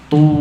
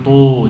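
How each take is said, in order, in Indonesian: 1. Vokalnya adalah bunyi u yang jelas. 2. Vokalnya condong ke bunyi o. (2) "bukan tu, jangan sampai ke o"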